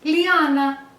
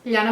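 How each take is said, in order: First: The name is said in a more Italian-sounding way. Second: The name is said in its original, less Italian way.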